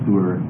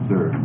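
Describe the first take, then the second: First: The u vowel is long. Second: The u vowel is short. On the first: "it's a long U sound" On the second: "If it were a kibbutz, it would be more Tsur"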